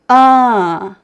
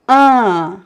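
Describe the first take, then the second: Both takes have the same delivery.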